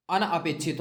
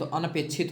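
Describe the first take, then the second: First: अनअपेक्षित with a break between an and apekshit; split word parts. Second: अनपेक्षित run together as "anapekshit", short a; correct joined form. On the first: Teacher showing word formation, अनअपेक्षित split as "an-apekshit". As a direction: separate अन from अपेक्षित in अनअपेक्षित. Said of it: "अनपेक्षित होता है". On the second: Teacher giving the right form, अनपेक्षित as one word "anapekshit". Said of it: "होता है". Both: Shown as a demonstration.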